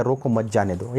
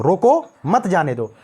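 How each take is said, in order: First: "रोको मत जाने दो" run together without a break; no comma pause. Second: "रोको" ऊँचा, फिर ठहरकर "मत जाने दो"; रोको के बाद विराम. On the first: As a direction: say "रोको मत जाने दो" evenly in one breath, no pause after "रोको". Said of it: "कॉमा हटा दिया". ("रोको मत जाने दो" बिना विराम, एक साथ) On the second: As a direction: pause at the comma after "रोको", then say "मत जाने दो" as one unit. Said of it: "एक कामा लगा दिया". ("रोको" पर रुकें, "मत जाने दो" साथ में बोलें) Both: Shown as a demonstration.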